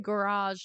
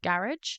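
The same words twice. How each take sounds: First: It is pronounced the Australian way. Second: It is pronounced the British way. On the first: "I even say garage now" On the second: "instead of garage"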